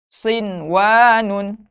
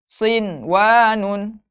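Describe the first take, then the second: Both takes have the same delivery.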